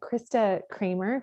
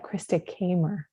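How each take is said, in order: First: The surname has an R sound after the K. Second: The surname has no R sound after the K. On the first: The speaker calls it wrong. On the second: The speaker calls it right.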